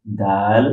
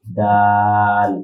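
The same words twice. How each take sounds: First: Said in the usual way. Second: দাল with a long, held aa; pronunciation demo. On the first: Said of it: "উচ্চারণ শেখার জন্য". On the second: Shown as a demonstration. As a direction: stretch the vowel of দাল slowly and evenly. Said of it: "উচ্চারণ শেখার জন্য আমরা দালটাকে".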